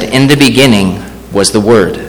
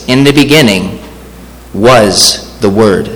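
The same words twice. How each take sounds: First: Said in the usual way. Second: Slow the verse down and lean on "was"; "was" set apart by a pause and drawn out; stress on WAS. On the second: Shown as a demonstration. Preacher showing the congregation the Word is eternal, stress on "was".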